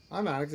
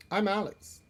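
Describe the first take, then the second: First: Said in the usual way. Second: Higher, brighter try at the name; higher first take. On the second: Acted. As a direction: pitch the name up a bit.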